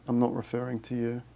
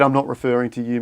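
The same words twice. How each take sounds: First: Much softer, almost to himself; softer repeat. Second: Said in the usual way. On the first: Real, not acted. Repeating to Z Gazette in chat, much softer. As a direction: drop the volume on the repeat.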